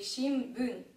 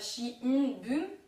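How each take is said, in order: First: The sound before the b is an m. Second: The sound before the b is a clear n. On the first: The speaker calls it right. "mais shimbun" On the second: The speaker calls it wrong. "Ce sera pas shinbun"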